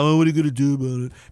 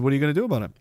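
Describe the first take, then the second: First: It sounds resigned, like giving up. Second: It sounds like a genuine, thoughtful question.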